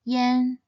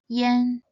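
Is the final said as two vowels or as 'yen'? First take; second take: yen; yen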